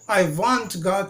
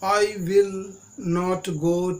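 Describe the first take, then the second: First: Will not is contracted into one short word. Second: Will not is said as two full words.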